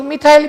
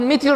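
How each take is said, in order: First: मिथाइल as mi-thile; alternative pronunciation. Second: मिथिल as mi-thil; both vowels of मिथिल as short i; short-i pronunciation. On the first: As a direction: rhyme the end of मिथाइल with "mile". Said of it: "कुछ लोग मिथाइल भी बोलते हैं". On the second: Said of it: "अपन मिथिल radical बोलते हैं". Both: Shown as a demonstration.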